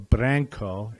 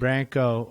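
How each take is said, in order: First: The R is said with a roll. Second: The R is said without a roll.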